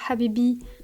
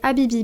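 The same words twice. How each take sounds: First: The word is said with Arabic-like sounds. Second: The word is said with plain French sounds. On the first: The speaker calls it right. "ça doit probablement plus se prononcer genre Habibi" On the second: The speaker calls it wrong. "Je le prononce très mal"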